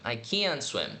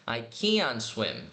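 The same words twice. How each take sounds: First: Said in the usual way. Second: Slow, careful I can swim; slow model sentence; slow clear demo. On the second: Shown as a demonstration. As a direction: say I can swim slowly, each word clear. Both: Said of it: "Ou se quiser marcar o T".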